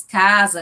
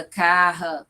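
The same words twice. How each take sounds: First: Said in the usual way. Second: Carra with a throaty h sound in place of the s; glottal r. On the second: Shown as a demonstration. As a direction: say carra, the s turned into a breathy h. (carra com som aspirado no lugar do s) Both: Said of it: "a questão do zan, né, que aí os exemplos".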